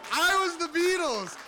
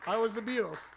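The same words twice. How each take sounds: First: Very high, ringing boast; exultant cry. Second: Said in the usual way. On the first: Real, not acted. Storyteller reliving his summer of fame, exultant. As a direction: proclaim it in full glory. Repeats climactic boast, then winds down.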